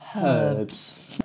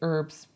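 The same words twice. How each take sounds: First: The word starts with a clear H sound. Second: The word starts without any H sound. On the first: "But we say herbs" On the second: "You say herbs"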